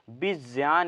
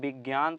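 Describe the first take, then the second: First: The middle conjunct is said like 'jya'. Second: The middle conjunct is not said like 'jya'. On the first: The speaker calls it right. "इसे हम ज्या बोलते हैं" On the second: The speaker calls it wrong. "इसे हम विज्ञान तो पढ़ते हैं लेकिन ये गलत है"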